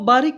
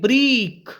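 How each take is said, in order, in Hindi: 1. यह शब्द मानक हिंदी लहजे में बोला गया है। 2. यह शब्द पंजाबी लहजे में बोला गया है। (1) "उनको बारीक कहना है" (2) "वो कहेंगे ब्रीक"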